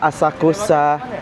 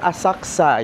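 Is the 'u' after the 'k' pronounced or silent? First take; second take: pronounced; silent. First: The u after k is clearly pronounced. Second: The u after k is nearly silent. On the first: The speaker calls it wrong. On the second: The speaker calls it right.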